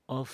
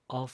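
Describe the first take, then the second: No difference in how they are said.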